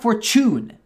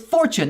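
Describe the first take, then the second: First: The stress is on the second syllable. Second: The stress is on the first syllable. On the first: The speaker calls it wrong. "they had to put the emphasis on the tune" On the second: The speaker calls it right. "It's fortune"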